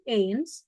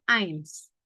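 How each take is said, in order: First: "eins" said ay-ns, as written; read as spelled. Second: "eins" said like "ains"; correct German reading. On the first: Teacher reading out the spelling, literal ay vowel in "eins". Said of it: "tulisannya eins". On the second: Teacher showing how it is read, ah-ee vowel in "eins". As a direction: open A-I glide in "eins". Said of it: "bacanya eins". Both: Shown as a demonstration.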